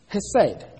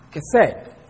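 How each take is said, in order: First: The word begins with an h sound. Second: The word begins with a k sound. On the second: "Or some call it kesed"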